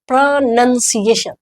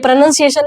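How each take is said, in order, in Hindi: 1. दूसरा अक्षर 'nun' जैसा सुनाई देता है। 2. दूसरा अक्षर 'noun' जैसा सुनाई देता है। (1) "प्रोनाउंसिएशन होता है" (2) "ये प्रोनाउंसिएशन नहीं होता है"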